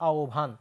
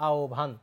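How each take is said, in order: Both takes have the same delivery.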